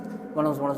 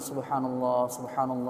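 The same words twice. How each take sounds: First: It is said very fast and rushed. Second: It is said slowly and carefully.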